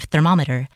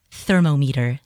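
First: Said in the usual way. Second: "thermometer" said as thermo-meter; "thermometer" mispronounced as THER-mo-MEE-ter; childhood mispronunciation. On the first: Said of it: "instead of thermometer". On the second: Shown as a demonstration. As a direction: say "thermometer" like thermo plus meter, as two parts. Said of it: "I used to always say".

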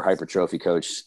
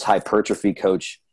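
First: "hypertrophy" as hyper-TROH-fee, like hyper plus trophy; alternative pronunciation. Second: "hypertrophy" stressed on PER, with a short unstressed "truh"; pronunciation variant. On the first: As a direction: say "hypertrophy" with a full long O in "tro". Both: Shown as a demonstration. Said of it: "depending on how you wanna pronounce it".

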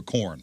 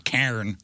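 First: Said in the usual way. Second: KAREN as "carn", corn with an AR. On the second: Shown as a demonstration. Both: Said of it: "swap the A R sound".

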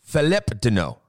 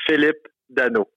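First: Philippe Danault echoed with an English "tuh-no" on Danault; copying French pronunciation. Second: Philippe Danault said the French way, Danault as "dano"; native French pronunciation. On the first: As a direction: repeat Philippe Danault after the player. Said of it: "Is that better?". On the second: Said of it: "I'll tell you my name in French". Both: Shown as a demonstration.

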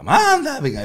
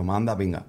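First: Much higher and louder, "manda pinga" sung out; higher, louder toddler take. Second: Said in the usual way. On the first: Retold or imitated. Dad imitating his daughter's rising "manda pinga" on video. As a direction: let "manda pinga" jump up in pitch like a child testing it. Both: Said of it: "lo fue cambiando de tono".

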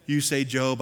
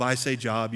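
First: "Job" with a long o, like the Bible book; biblical name Job. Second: "Job" with a short o, like work. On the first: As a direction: say "Job" as the name, rhyming with robe. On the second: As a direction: say "Job" as in employment, rhyming with rob. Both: Shown as a demonstration.

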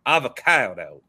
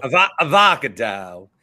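First: Avocado with a botched third syllable, ah-vuh-KAI-doe; mispronounced. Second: Avocado as uh-VOCK-uh-dow, after a false start; echoed mispronunciation. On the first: Real, not acted. Host fumbles the ad read, Avocado as ah-vuh-KAI-doe. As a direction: stumble on Avocado, stressing KAI. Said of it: "I said that wrong just now". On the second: Shown as a demonstration. Host tries the co-host's version, avocado as uh-VOCK-uh-dow. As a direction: stress VOCK in avocado, louder. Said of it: "It's avocado".

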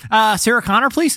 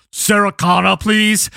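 First: Martin Short. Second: Put-on stiff Austrian-accented robot assassin; Austrian bodybuilder. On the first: Acted. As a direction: lift the voice, hesitant and unthreatening. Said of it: "if he looked like Martin Short". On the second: Robot assassin walks into a building asking for someone, Austrian accent. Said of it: "a six-foot-two Austrian bodybuilder".

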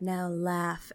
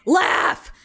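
First: Imitated soft, low-key teacher; calm instruction. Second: Imitated loud, high-pitched teacher's order; insistent command. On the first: Yoga-mat teacher instructing the class, calm and quiet. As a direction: give the order quietly and evenly. Teacher calmly leading breathing exercise. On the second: Teacher ordering reluctant students, loud and insistent. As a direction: belt it out as a sudden demand.

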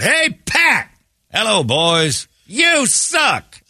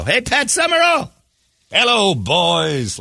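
First: Retold heckling yell. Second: Retold drawn-out yell. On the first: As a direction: shout it up at the booth like a rowdy fan. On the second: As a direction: stretch the words out like a heckler in the stands. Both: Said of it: "And I screamed out".

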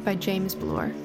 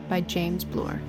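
No difference in how they are said.

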